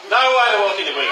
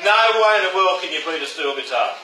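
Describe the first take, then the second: First: Fast laughing insistence; emphatic repeat. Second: Said in the usual way. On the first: Real, not acted. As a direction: hammer the point home with a laughing shout. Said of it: "repeats line louder, laughing". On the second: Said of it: "first plain take".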